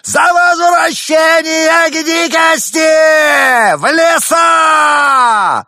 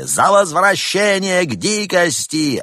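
First: Very high, slow shrieking cry. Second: High, loud crowd chant; crowd yelling. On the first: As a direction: break into a screech. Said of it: "срывается на визг". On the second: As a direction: yell it back as the crowd. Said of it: "Вопли". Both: Acted.

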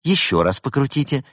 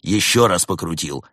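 First: High, eager helpdesk instruction; upbeat lad, pitch raised; cheerful young technician. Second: Fed-up customer reporting compliance; exasperated echo. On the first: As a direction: instruct brightly like a young support worker. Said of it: "молодой и жизнерадостный". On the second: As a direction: own pitch, firmly stressed reply. Weary customer echoes technician's instruction. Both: A narrator's reading.

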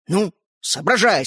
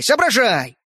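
First: Slow, nudging соображай; slow coaxing prod. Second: Louder, pushier соображай; impatient urging. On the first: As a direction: coax the boy to think. Toy man urging. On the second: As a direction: press him harder, a bit louder. Toy man urging louder. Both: A narrator's reading.

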